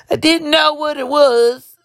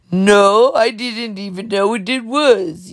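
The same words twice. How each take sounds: First: High, slow, badly faked country accent. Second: Attempted country accent, slow and drawn out. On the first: Wrangler answering telepathically in a dream, high mock country accent. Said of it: "I can't do a country accent". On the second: Wrangler answering her in the dream, slow mock country accent. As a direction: put on a rough country accent, slowly. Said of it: "with this country accent".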